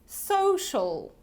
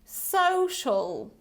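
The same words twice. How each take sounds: Both takes have the same delivery.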